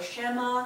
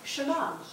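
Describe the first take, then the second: First: The first vowel is a long E sound. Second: The first vowel is short and reduced. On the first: The speaker calls it wrong. "should not be actually pronounced Shema" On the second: The speaker calls it right. "It's Shema"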